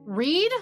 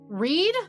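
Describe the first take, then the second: First: The vowel is long, rhyming with seed. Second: The vowel is long, rhyming with seed.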